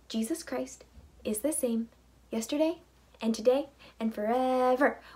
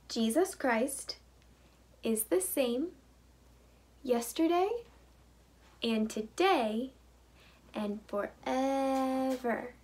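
First: It is said at a fast pace. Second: It is said at a normal pace.

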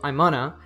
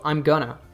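First: The phrase is reduced to 'I'mana'. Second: 'Going to' is reduced to 'gonna'. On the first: "On the first level, it reduces to I'mana" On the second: "I'm going to reduces to I'm gonna"

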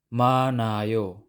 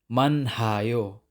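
First: The h sound is silent. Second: An h sound is pronounced. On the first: The speaker calls it right. "silent pa rin si consonant H" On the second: The speaker calls it wrong. "Hindi manhayo. Mali yun"

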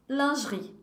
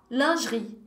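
The two takes are said the same way.

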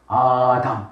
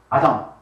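First: The first vowel is long. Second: The first vowel is short. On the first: "카메치 아담은 장모음" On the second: "파다 아담 뭐라고 했죠? 단모음"

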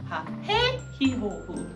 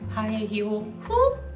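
First: The stress falls on the second syllable. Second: The stress falls on the fifth syllable.

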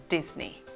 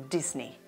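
The two takes are said the same way.

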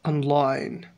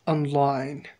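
Both takes have the same delivery.

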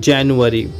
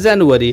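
First: The word begins with a J sound. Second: The word begins with a Z sound. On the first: The speaker calls it right. "जे का असली sound होता है जा, तो ये क्या हुआ" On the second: The speaker calls it wrong. "जनवरी यानी कि जेड का साउंड आ रहा है"

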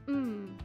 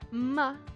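First: The consonant is said alone with no vowel. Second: The consonant is followed by a short vowel. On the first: The speaker calls it right. "but instead m" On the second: The speaker calls it wrong. "This would not be ma"

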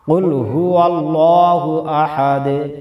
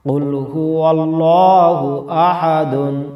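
First: The last word ends in an echoing stopped 'd'. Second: The last word ends with a full '-dun'. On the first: The reader pauses at the end of the verse. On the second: The reading continues without a stop.

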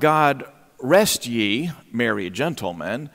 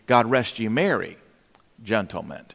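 First: It runs on without a pause before gentlemen. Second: There is a pause before gentlemen.

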